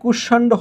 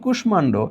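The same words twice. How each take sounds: First: The sh consonant is doubled and m is silent. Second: The m sound is pronounced after the sh. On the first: This is what the doubling rule would give. "সংযুক্ত ব্যঞ্জন দ্বিত্ব হবে, তাহলে এটা কুষ্মাণ্ড হওয়ার কথা" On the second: This is how the word is actually said. "এখানে ম কিন্তু উচ্চারিত হচ্ছে"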